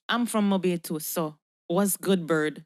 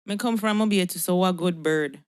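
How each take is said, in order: First: Jamaican speaker sounding Yankee; Yankee accent. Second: Redone in a Jamaican accent, a touch firmer; Jamaican patois. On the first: Claiming Mobay roots to Bird, Yankee accent. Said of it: "talk like a Yankee". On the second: Proving Mobay roots after Yankee jibe, Jamaican patois. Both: Shown as a demonstration.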